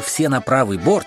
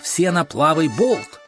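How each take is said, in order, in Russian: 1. Слова произносятся со звуками Р. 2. Слова произносятся со звуками Л. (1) "вместо «все на правый борт»" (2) "он скомандовал «все на плавый болт»"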